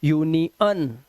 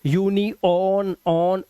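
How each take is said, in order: First: "यूनियन" slowly as yoo-nee-UN; slow "यूनियन" with "un", no O sound; correct schwa ending. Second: "यूनियन" drawn out as yoo-nee-ON, then "ऑन"; very slow "यूनियन" with an open "on" ending; wrong O sound. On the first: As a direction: end "यूनियन" on a short "un". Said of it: "आ की है". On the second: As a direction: split "यूनियन" and sound its last syllable as "ऑन". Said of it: "ओ की आवाज नहीं है". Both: Shown as a demonstration.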